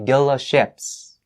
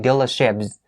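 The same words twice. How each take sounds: First: It is said with an S sound before 'ships'. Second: It is said with a Z sound before 'ships'. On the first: The speaker calls it wrong. "don't say" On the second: The speaker calls it right. "Don't miss the Z sound here"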